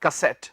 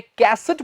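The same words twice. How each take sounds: First: कैसेट as kuh-SET, low and soft; English word form. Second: कैसेट as KAS-et; Hindi pronunciation. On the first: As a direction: land on the second syllable of कैसेट. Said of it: "क्या बन गया word". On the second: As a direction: stress the first syllable of कैसेट. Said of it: "Hindi में कैसेट बोल देते हैं". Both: Shown as a demonstration.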